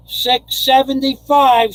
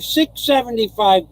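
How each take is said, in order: First: Six seventy-five, stretched out slowly and higher; drawn-out excited call. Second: Said in the usual way. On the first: Real, not acted. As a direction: savour "six seventy-five" as a happy announcement. Excited about donation.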